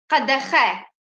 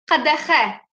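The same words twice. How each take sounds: The two takes are said the same way.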